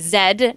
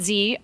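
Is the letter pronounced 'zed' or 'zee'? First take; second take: zed; zee. First: The letter is pronounced 'zed'. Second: The letter is pronounced 'zee'. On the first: The speaker calls it right. "that's actually Zed" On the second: The speaker calls it wrong. "not Z"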